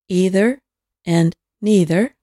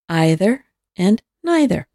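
First: Both words use an "ee" vowel sound. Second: Both words use an "eye" vowel sound.

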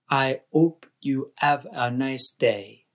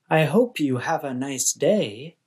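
First: The h sounds in hope and have are dropped. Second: The h sounds in hope and have are pronounced. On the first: The speaker calls it wrong. "sounds more like" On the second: The speaker calls it right. "a statement such as"

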